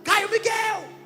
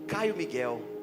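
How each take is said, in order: First: The name is said in an angry, scolding voice. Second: The name is said in a calm, pleasant voice. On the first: The parent is scolding the child. "Quando tá bravo" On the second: The parent is trying out the name fondly. "Deixa eu ensaiar a pronúncia"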